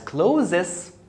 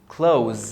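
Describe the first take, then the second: First: The word is said with two syllables. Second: The word is said with one syllable. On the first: The speaker calls it wrong. "If you pronounce the first word as closes, you're so wrong" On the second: The speaker calls it right. "The es are silent, and the th is pronounced as z"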